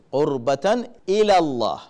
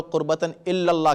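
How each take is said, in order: First: قربتاً الی اللہ, slowly, with الی kept apart and one single L; الی clear with a single light L, then اللہ. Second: قربتاً الی اللہ with الی run into اللہ as "illallah", a doubled L; الی said with a held double L, sounding like الا; wrong double L. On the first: Preacher models the right way: slow, one L in الی. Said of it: "ایک one single ایل کی آواز نکالیں". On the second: Preacher shows the common mistake: الی slurred into الا. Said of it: "تو الا مت کہیں کبھی". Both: Shown as a demonstration.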